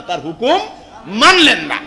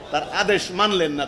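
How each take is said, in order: First: তার হুকুম মানলেন না with মানলেন hit hard and much louder; punched rebuke. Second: Said in the usual way. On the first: Acted. Preacher scolding the congregation: মানলেন shouted out loud. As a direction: drive মানলেন না home like a thunderclap, loud.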